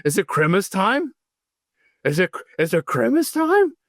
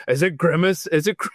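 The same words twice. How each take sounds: First: Higher, eager dog voice rising on time; an excited dog begging to know if it's Grimace time; Tanner voice. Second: A slightly raised, excited dog voice that breaks off; Tanner voice, fumbled. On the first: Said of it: "I do my Tanner voice". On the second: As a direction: start the dog's line and trip over it. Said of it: "see, now I'm screwing it up". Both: Retold or imitated.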